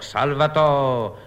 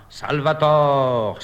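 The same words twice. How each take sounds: First: Slow echoing repeat; declaiming. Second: Slow grand declamation; declaiming. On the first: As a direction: proclaim it again, slower. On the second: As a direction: proclaim it slowly, theatrically. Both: Acted. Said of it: "déclame".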